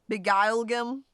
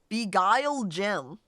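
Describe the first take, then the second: First: The last word is said like them. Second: The last word is said as gem. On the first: The spear is used to beguile them. The speaker calls it right. "I like saying it more like that" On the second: It sounds like a rock or mineral. The speaker calls it wrong. "You just don't say it as gem"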